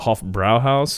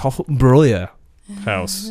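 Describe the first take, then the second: First: The second syllable has a plain vowel. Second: The second syllable has an umlauted vowel. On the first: The speaker calls it wrong. "I was pronouncing it wrong forever there" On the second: The speaker calls it right. "it's got the umlauts above the A on the second A"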